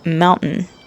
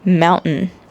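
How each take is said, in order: First: The T sound is dropped in quick speech. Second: The T sound is dropped in quick speech.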